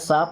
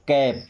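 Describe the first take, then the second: First: It starts with s and a long 'aa' vowel. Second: It starts with k and a short 'a' vowel. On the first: The speaker calls it wrong. "इसे काप या साप नहीं पढ़ते हैं" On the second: The speaker calls it right. "क्या हो जाएगा"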